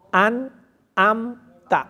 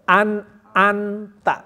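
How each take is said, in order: No difference in how they are said.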